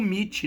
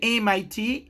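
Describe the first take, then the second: First: It is pronounced as a single word. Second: Each letter is spoken separately. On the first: This is how it is known in Brazil. "aqui no Brasil ficou conhecido como M I T" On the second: This is how it is said in English. "No inglês ele é M I T, ele é uma abbreviation"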